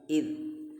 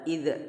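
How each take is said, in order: First: The final consonant is held without a bounce. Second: The final consonant is released with a bounce. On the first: The speaker calls it right. "tapi idh" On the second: The speaker calls it wrong. "Jangan dipantulkan, jangan dibaca idh"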